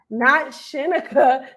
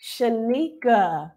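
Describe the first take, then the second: First: Shinika with shih-neh, slow; wrong name. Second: Shanika slow, first syllable shuh, nee stressed; correct name. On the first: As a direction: stress not, say Shinika as shih-nuh-kuh. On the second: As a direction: say Shanika slowly with ee. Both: Shown as a demonstration.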